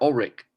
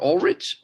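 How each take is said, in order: First: "Ulrich" with the last sound as in "rick"; hard K ending. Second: "Ulrich" with a final "tch" sound; soft CH ending. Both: Shown as a demonstration. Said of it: "can be pronounced either way".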